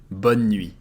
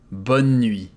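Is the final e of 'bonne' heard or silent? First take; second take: silent; silent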